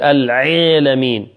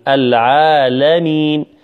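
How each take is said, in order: First: The ain sound is forced and pressed hard. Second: The ain sound is soft and unforced. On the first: The speaker calls it wrong. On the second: The speaker calls it right.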